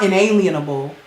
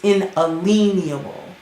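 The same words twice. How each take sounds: First: The middle part sounds like the word 'alien'. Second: The middle part sounds like 'a lien'. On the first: The speaker calls it wrong. "It's not inalienable" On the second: The speaker calls it right. "it's inalienable"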